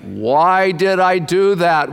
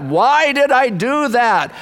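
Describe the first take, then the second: First: Slow brooding question. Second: Higher, slow, anguished "Why did I do that?"; anguished cry. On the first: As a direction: ask it to yourself, slowly. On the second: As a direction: cry it out in regret. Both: Shown as a demonstration.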